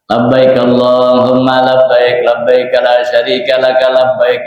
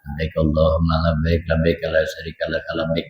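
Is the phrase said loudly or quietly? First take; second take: loudly; quietly. First: The phrase is said loudly and strongly. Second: The phrase is said quietly and softly. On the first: The speaker calls it right. "Tapi sudah dikerasin" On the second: The speaker calls it wrong. "enggak dibaca pelan ... Enggak begitu bacanya"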